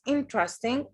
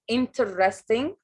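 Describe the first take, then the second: First: It is said clipped, with three syllables. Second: It is said with four full syllables. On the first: The speaker calls it right. "بنخطفها مش بنزود مقاطع" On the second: The speaker calls it wrong. "sometimes we make a common mistake. We say interesting"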